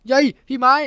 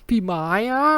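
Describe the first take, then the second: First: High, loud startled yelp. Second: High, suggestive whined name; sultry whine. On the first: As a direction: yelp the name as if grabbed from behind. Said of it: "ทำเสียงตกใจนิดหน่อย". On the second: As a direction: whine the name, drawing out the end. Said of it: "น้องที่ร้องเสียงสยิวกิ้วออกมา". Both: A narrator's reading.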